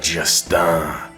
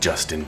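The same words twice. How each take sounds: First: The name is pronounced the French way. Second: The name is pronounced the English way. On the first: The speaker calls it right. "you must pronounce it in French" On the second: The speaker calls it wrong. "Not [name] like Justin Bieber"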